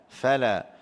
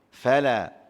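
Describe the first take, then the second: The two takes are said the same way.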